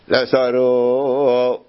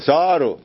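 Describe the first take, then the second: First: The stress is on the last syllable. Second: The stress is on the first syllable. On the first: The speaker calls it wrong. "ככה הוא קרא... הוא טעה, אומר מלרע" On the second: The speaker calls it right. "צריך מלעיל. אז אמרו לו"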